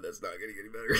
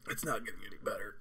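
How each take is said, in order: First: Said in the usual way. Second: Soft breathless whisper. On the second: Real, not acted. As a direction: whisper it through the pain. Whispers, then repeats it plainly.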